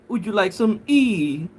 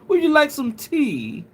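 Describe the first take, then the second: First: The t in tea is left out. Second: The t in tea is clearly pronounced. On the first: The speaker calls it right. "Don't pronounce the T" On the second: The speaker calls it wrong. "No, no, you you have to say"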